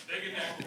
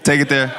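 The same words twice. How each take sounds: First: Breathy whisper, no voice. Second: Said in the usual way. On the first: Real, not acted. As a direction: drop to a whisper for the repeat. Repeating the line, under the breath.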